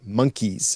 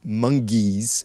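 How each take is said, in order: First: The middle consonant is a k sound. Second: The middle consonant is a g sound. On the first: The speaker calls it right. "the word monkeys" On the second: The speaker calls it wrong. "I mispronounced the word monkeys and I said mongeys"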